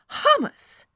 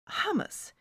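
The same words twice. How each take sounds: First: Hummus exclaimed loud and high; emphatic hummus. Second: Hummus asked softly with a high pitch; hummus as a puzzled, checking question. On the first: Friend corrects the narrator, hummus exclaimed emphatically. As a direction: hit hummus hard, as a correction. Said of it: "she said emphatically". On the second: Narrator checks with her friend, hummus as a question. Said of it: "I asked". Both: Acted.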